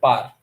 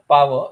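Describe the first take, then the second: First: It is said as short 'par'. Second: It is said as full 'power'. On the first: The speaker calls it right. "you call it par" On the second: The speaker calls it wrong. "you don't call it power"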